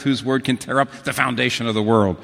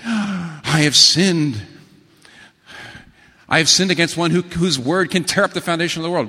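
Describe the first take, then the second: First: Said in the usual way. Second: Hammed-up dread of a sinner about to be punished; terrified confession. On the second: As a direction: cry out as if the ground may split.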